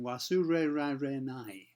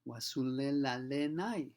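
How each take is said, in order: First: The consonants sound like a curled-tongue R. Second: The consonants sound like a clear L. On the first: A foreigner says it. "Imagine a foreigner saying" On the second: A child who has difficulty with the sound says it. "more of an L sound than the usual sound you get in Japanese"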